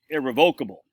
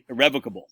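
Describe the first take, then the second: First: It uses the local Maine pronunciation. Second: It uses the polished big-city pronunciation. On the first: The speaker is a plain, local person. The speaker calls it wrong. "Like we from Maine, who can't pronounce words very well, we say irrevocable" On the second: The speaker is a refined, upscale professional. The speaker calls it right. "The bigwigs in the Boston and New York City ... will say irrevocable"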